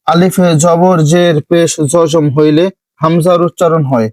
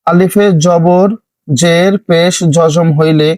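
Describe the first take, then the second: First: Said in the usual way. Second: Each Arabic term spoken slowly and separately, আলিফে জবর জের পেশ জজম set apart; slow, deliberate teacher's spelling of আলিফে জবর জের পেশ. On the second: Shown as a demonstration. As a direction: dictate the terms slowly for learners. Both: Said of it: "তারপর একটি দেখুন".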